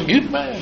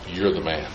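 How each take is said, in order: First: It sounds like admiring praise. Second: It sounds like a stern accusation.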